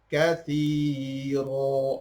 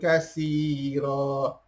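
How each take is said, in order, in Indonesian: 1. Konsonan tengah itu bunyi 'th' lembut. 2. Konsonan tengah itu bunyi 's' biasa. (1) "Yang kathi huruf sa" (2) "Bukan kasira"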